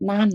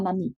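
First: "นั่น" read short as nan, with no final i; "นั่น" as one syllable. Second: "นั่นนี่" read na-ni, with a second syllable; "นั่นนี่" as two syllables. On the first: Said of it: "ให้ออกเสียงว่า". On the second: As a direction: say "นั่นนี่" as nani, ending in i. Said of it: "ออกเสียงว่า". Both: Shown as a demonstration.

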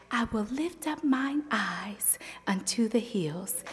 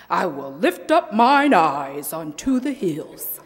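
First: Soft breathy whisper of the verse; softer, sweeter voice. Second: Booming preacher read of the verse; mock the big preacher style; preacher imitation. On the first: Retold or imitated. Youth speaker tries a soft sweet voice, whispered. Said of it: "use a little softer and sweeter voice". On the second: Youth speaker mimics a reverend's preaching. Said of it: "that's a little too much like Reverend J T".

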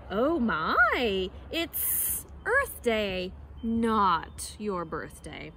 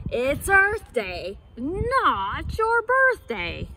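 First: Drawn-out, slithery snake; slow snake voice. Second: Louder, slow hippo boom; loud hippo cry. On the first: Snake in the trees answers Monkey, slow and slithery. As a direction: stretch each word like a snake. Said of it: "she raised her head and said". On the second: Hippo answers Monkey from the riverside, loud slow cry. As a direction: bellow it slowly across the river. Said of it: "loudly cried". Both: Acted.

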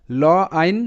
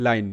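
First: "ল আইন" as two separate sounds, ল then আইন; sounded out in parts. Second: Said in the usual way. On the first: Shown as a demonstration. Teacher showing beginners how the letters sound, "ল আইন" sounded out. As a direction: break it apart: ল, pause, আইন. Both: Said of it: "এল এর উচ্চারণটা ল".

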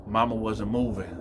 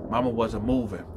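The two takes are said the same way.

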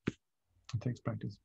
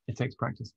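First: Much softer and slower, letting it sink in; gentle slowed-down echo; soft, slow repeat. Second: Said in the usual way. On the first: Shown as a demonstration. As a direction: repeat it softly and slowly, almost to yourself.

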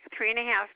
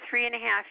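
Both takes have the same delivery.

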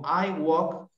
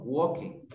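First: WALK in one syllable, "wok"; "I walk" ending cleanly on K; correct pronunciation. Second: WALK read as two syllables, "WOL-keh"; wrong spelling-style reading. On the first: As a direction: model "I walk" with no vowel after the K. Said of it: "sino digo I walk". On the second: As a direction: say "walk" as a Spanish reader would, with a final "eh". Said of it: "no voy a leer walk". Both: Shown as a demonstration.

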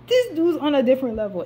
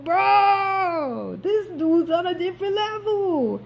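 First: Said in the usual way. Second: Much higher, crying out in disbelief; awed outcry. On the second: Retold or imitated. Viewer marveling at Boromir fighting on, high awed outcry. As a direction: squeal it like the fight blew your mind. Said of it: "I was like".

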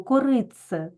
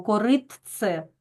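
First: «коритце» with тц merged into a long ц; natural merged pronunciation. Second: Slow «коритце» with a separate т before ц; over-articulate «коритце» as written, т and ц apart; spelled-out wrong pronunciation. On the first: Teacher shows pupils how the word is said, «коритце» with doubled ц. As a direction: say «коритце» as it sounds, кориц-це. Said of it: "як у нас вимовляється це слово". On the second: Teacher shows pupils what we don't say, «коритце» with distinct т. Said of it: "Ми ж не кажемо". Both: Shown as a demonstration.

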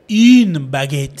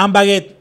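First: "Une" stretched long and loud, feminine article; pointed correction. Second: "Un baguette" with masculine "un", quick and louder; learner's wrong article. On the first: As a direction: correct them with a loud, slow "Une" before "baguette". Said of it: "miran así y dicen". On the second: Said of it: "Entonces miran así y dicen". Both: Retold or imitated.

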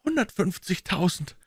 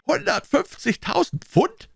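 First: Said in the usual way. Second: High, slow, disbelieving echo; drawn-out cry of disbelief, pitched way up; incredulous. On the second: A narrator's reading. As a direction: repeat the sum as an astonished question. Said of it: "rief er ungläubig".

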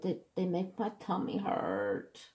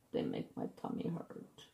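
First: Higher, softer little whine; whiny complaint. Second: Barely voiced, pitiful whimper; low, feeble whisper of a whine; whimpered complaint. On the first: Retold or imitated. Patient moaning to the doctor about iron pills, whiny. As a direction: whine pitifully in a small voice. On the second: Patient repeating the complaint to the doctor, feeble whimper. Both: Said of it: "you're a whiner".

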